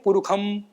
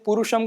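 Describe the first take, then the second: First: The middle consonant is a kh sound. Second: The middle consonant is a retroflex sh sound. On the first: The speaker calls it wrong. "मूर्धन्य शकार को खकार करके बोलते हैं" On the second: The speaker calls it right. "मूर्धन्य शकार"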